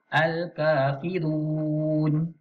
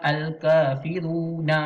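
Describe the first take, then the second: First: Al-Kafirun slow, nun stopped; correct ending. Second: Al-Kafiruna with an extra a, marked as wrong; wrong ending. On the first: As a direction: say Al-Kafirun slowly, stop on the nun. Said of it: "Jadi kita baca". (Al-Kafirun dibaca perlahan, nun dimatikan) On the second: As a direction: add a short a to Al-Kafiruna to show the error. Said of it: "itu salah". (Al-Kafiruna, sebutan salah) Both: Shown as a demonstration.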